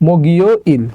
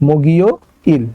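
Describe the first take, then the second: Both takes have the same delivery.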